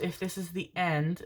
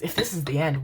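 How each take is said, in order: First: Soft, ominous phrasing; quietly doom-laden; grim. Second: Wavering imitation of a grim line; exaggerated doom-laden tune; mock grim. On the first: Real, not acted. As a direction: say it softly like a grim farewell. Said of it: "why did I say it like that? That was grim as fuck". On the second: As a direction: mimic your own ominous delivery. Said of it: "That was grim as fuck".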